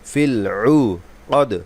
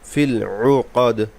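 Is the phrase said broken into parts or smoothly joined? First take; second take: broken; smooth. First: The phrase is broken with pauses between parts. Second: The phrase flows smoothly without breaks.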